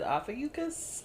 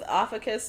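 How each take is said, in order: First: The U sound is clearly said in the word. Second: The U sound is left out of the word. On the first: "a pronunciation on an article that said Ophiuchus" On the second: "I was going with Ophiuchus before"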